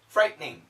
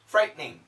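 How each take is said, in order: First: It is said fast with a sound skipped. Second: The same.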